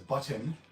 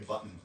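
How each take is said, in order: First: The T in the middle is clearly pronounced. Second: The T in the middle is dropped. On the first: "he pronounces the T" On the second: "just pretend the T isn't there"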